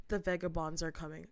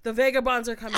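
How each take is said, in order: First: Low, soft imitation of a stranger; quiet ominous stranger. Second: Raised-volume imitation with a laugh in it; louder stranger. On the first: Train stranger repeats his warning to a passenger, quiet imitation. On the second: Train stranger gets louder with his warning, raised voice. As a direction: call out his warning loudly, amused. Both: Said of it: "he gets louder now".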